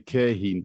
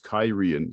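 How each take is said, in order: First: The name is said as 'Kerhin'. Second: The name is said as 'Kyrian'. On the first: The speaker calls it wrong. "I always used to say Kerhin" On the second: The speaker calls it right. "but it's Kyrian"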